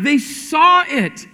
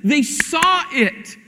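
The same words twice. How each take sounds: First: Slow, heavy "saw" with a falling end; repeated emphasis on "saw", unhurried; stress on saw again. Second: Slow, "saw" leaned on and falling; emphatic "saw", slowed right down; stress on saw. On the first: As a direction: drive "saw" home and land it. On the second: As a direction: draw out "saw" and let it fall. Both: Shown as a demonstration.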